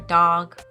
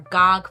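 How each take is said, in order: First: The first sound is a D sound. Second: The first sound is a G sound.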